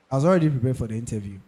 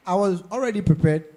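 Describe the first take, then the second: First: "already" said fast and light in a brisk repeat; "already" run through fast, not stressed; quick restatement. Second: "already" stretched and leaned on; stress on already. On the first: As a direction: rattle it off quickly. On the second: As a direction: press hard on "already". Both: Shown as a demonstration.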